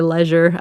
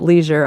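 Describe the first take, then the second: First: The word has a British pronunciation. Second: The word has an American pronunciation. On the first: "I say them Britishly also. But like I really do say leisure" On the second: "Americans pronounce it leisure"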